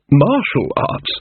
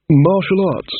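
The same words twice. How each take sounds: First: Very slow, drawn-out MARTIAL ARTS; slow, stunned repeat. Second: Higher-pitched puzzled read of MARTIAL ARTS; baffled reading. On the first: King rereads the title, slowly dumbfounded. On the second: King reads the title page, baffled. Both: Acted.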